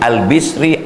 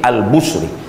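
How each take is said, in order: First: The name's first syllable has the vowel i. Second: The name's first syllable has the vowel u.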